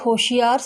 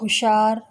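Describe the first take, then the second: First: The word is said with three syllables. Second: The word is shortened to two syllables. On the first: The speaker calls it right. "होशियार शब्द को" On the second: The speaker calls it wrong. "Haryana क्षेत्र के लोग"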